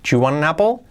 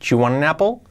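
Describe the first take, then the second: No difference in how they are said.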